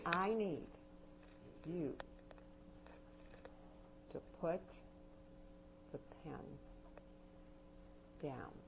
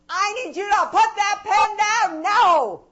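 First: The voice gets softer toward the end. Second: The voice gets louder toward the end.

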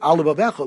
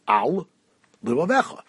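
First: The two L sounds merge into one. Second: Both L sounds are pronounced separately. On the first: The speaker calls it wrong. "like there's only one lamed" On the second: The speaker calls it right. "You should say"

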